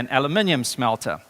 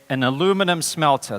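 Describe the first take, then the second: First: The metal's name has five syllables, British style. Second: The metal's name has four syllables, American style.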